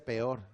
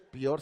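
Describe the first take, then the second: First: The word has the standard pronunciation. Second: The word has a colloquial, nonstandard pronunciation. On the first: This is the accepted way to say it. The speaker calls it right. "se dice" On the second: This is how older people say it. The speaker calls it wrong. "no se dice"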